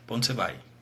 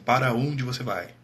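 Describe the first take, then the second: First: Para is shortened to a single syllable pra. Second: Para is said in full with two syllables. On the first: This is how people actually talk. The speaker calls it right. "A gente fala assim" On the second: This is not how people actually talk. The speaker calls it wrong. "a gente não fala assim"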